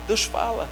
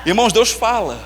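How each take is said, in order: First: Softer echo. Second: Said in the usual way. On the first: Shown as a demonstration. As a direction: repeat Deus fala much softer, almost to yourself. (eco suave de Deus fala)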